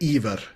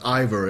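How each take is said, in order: First: The name has a Norwegian pronunciation. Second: The name has an English pronunciation. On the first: "I would say Ivar in uh, in Norwegian" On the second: "but Ivor is also quite fine"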